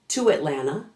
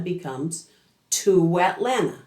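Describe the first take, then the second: First: The two words are said without a w glide. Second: A long w glide joins the two words.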